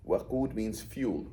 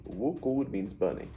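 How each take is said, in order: First: Slow WAQUD with open a first; stretched WAQUD, opening on "wa"; first vowel a. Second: Slow WUQUD with rounded u first; stretched WUQUD, opening on "wu"; first vowel u. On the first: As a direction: say WAQUD as wa-QOOD. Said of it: "this pattern". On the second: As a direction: say WUQUD as wu-QOOD. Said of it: "So wuqud is the process". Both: Shown as a demonstration.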